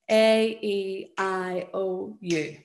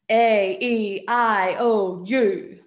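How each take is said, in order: First: It is said in a normal rhythmical voice. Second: It is said in a loud voice.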